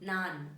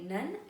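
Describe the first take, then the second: First: The vowel is a long open 'aa'. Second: The vowel is short, like 'nun'. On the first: The speaker calls it right. "it's a nan. Ah sounding" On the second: The speaker calls it wrong. "Do not say none"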